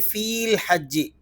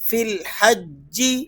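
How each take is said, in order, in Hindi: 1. पहला स्वर खींच कर लंबा है। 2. पहला स्वर छोटा है।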